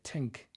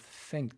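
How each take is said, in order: First: It starts with a t, Irish style. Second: It starts with a standard th sound.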